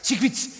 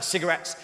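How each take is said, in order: First: The vowels are dropped, sounding like 'secrets'. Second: All the vowels are clearly pronounced. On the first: "it sounds like secrets" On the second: "a word like uh, cigarettes"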